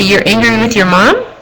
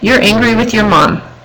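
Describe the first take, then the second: First: The voice rises at the end. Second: The voice falls at the end. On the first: It asks the client a question. The speaker calls it wrong. "If you raise your voice at the end" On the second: It reflects back what the client said. The speaker calls it right. "in a statement form"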